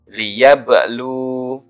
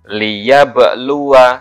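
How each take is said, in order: First: The word ends on a vowelless w sound. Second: The word ends with a short vowel after w. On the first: The reader stops at this word. "kalau dibaca uh, wakof maka wawunya sukun" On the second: The reading continues on without stopping. "saya baca yang wasal dulu ya"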